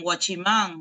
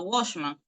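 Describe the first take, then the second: First: It is pronounced with Spanish sounds. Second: It is pronounced with English sounds. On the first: This is the form adapted to the speakers' own language. "Lo mismo pasa con, con guachimán" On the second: This is the original form in the source language. "En inglés un vigilante es un a watchman"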